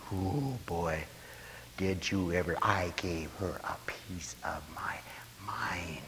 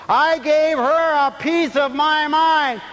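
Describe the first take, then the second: First: Soft whispered boast; hushed gossip. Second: High loud slow proud boast. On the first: Preacher playing a gossip bragging she told someone off, whispered. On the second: Preacher mocking a proud boast of telling someone off. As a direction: belt it out slowly. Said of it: "They said it exactly right". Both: Retold or imitated.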